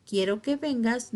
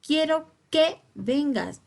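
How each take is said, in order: First: Said in the usual way. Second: Slow, higher and louder, QUE set apart and stressed. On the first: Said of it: "no llevaría acento". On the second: Shown as a demonstration. Teacher shows the incorrect accented sentence, stressed QUE in "Quiero que vengas". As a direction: lean on "que" as if it carried an accent. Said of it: "Está incorrecta porque aquí".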